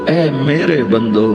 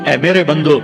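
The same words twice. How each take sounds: First: It is said in a tender, loving tone. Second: It is said in a plain, flat tone. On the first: The speaker calls it right. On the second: The speaker calls it wrong.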